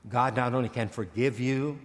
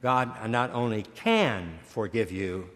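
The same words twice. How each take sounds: First: God not only can forgive you, stress on "God"; preacher corrects a misplaced stress, first the wrong take on "God". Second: "can" drawn out and leaned on, slow; preacher corrects himself, then slow stress on "can". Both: Shown as a demonstration. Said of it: "wrong inflection of, of the wrong word".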